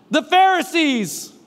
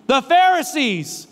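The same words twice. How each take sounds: The two takes are said the same way.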